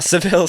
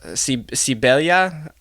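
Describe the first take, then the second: First: The name is said with English sounds, two syllables. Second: The name is said with Spanish sounds, three syllables. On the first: "We'll stick with the English uh, pronunciation" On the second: "I know the V is a B and the L is a Y. Uh, I believe in Spanish"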